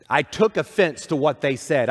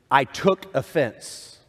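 First: Said in the usual way. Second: "I took offense" said slowly, leaning on "I"; quoted phrase, slow. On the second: Shown as a demonstration. Pastor holds up a common phrase to the congregation, slow and deliberate. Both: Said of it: "the phrasing that we use".

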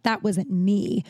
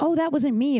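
First: Slow, drawn-out mock denial; pointed denial. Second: Higher-pitched, offhand quoted denial; casual denial. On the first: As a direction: imitate a heavy, deliberate denial. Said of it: "I wasn't like". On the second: Retold or imitated. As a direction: toss it off lightly, pitched up. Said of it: "I was just like".

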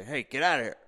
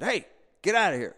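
First: A higher, louder mock yell at a bear; retold yell. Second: Loud, much higher shout to scare it off; yelling at a bear. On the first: Joe yelling at a bear at the feeder, mock yell. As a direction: imitate the host yelling the bear away. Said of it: "I heard Joe yell". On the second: Retold or imitated. On a porch, shouting at a bear to leave, loud shout. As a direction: bark it out to chase the animal. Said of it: "I start yelling at the bear".

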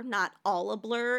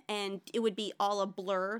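First: "blur" given the weight, said naturally; "all a blur" with the stress on "blur". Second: And it would be all a BLUR with the weight on "would"; "would" stressed over "blur". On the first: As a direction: land on "blur", not on "all". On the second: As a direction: lean on "would" like the song does. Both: Shown as a demonstration. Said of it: "the emphasis is on the wrong syllable".

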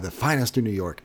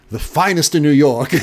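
First: Soft, proud echo of The finest in New York; hotel staff answering proudly, softly; with such pride. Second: With pride. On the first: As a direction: savour it quietly, like a proud boast. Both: Retold or imitated. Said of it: "They say that with such pride".

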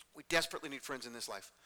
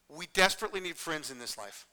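First: Softer, lower, sober statement; hushed earnestness. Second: Said in the usual way. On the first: Real, not acted. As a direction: drop the voice and say it earnestly. Repeats statement more softly for weight.

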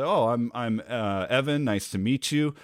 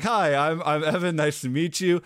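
First: Stumbling over the name, uh, Evan; halting self-introduction with a pause before Evan; hesitant. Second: Higher, louder, cheerful hello without a hitch; upbeat self-introduction with the name said straight away; friendly greeting. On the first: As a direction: trip over your own name before getting it out. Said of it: "I hesitated on that". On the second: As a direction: say it smoothly and brightly this time. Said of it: "Uh, no, like". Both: Shown as a demonstration.

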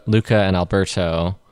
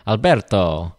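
First: Said in the usual way. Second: Alberto said with an Italian ber, rolled r and a clear toe at the end; a hint of Italian accent on Alberto; light Italian accent. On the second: Shown as a demonstration. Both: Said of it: "hard not to try to do it in an Italian accent".

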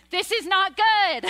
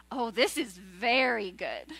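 First: Higher, louder dismayed "This is not good"; God dismayed. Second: Lower, slower, softer "Oh, this is very good"; admiring God. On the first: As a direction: act God recoiling at the sight of man. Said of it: "he's like". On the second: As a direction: savour it like a masterpiece. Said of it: "he goes". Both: Retold or imitated.

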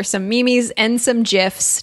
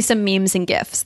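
First: "Mimis" as mee-meez, "gifs" as jifs; joke mispronunciation. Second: Said in the usual way. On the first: Shown as a demonstration. Host jokingly pointing listeners to show notes, mispronounced on purpose. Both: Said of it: "Just kidding".

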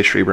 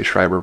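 First: Schreiber said SHREE-ber, ee vowel. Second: Schreiber said SHRY-ber, eye vowel. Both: Shown as a demonstration. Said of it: "back and forth".

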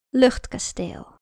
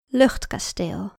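First: Title announcement. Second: Slow, deliberate title; slow title reading. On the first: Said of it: "met het verhaal". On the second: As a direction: announce the title slowly. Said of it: "naar het verhaal". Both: Shown as a demonstration.

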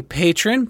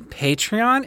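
First: Patron as PAY-trun, two syllables; says patron. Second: Patreon as PAY-tree-on, three syllables; says Patreon. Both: Shown as a demonstration. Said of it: "is that what it means?".

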